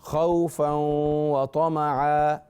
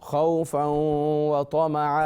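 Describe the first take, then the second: No difference in how they are said.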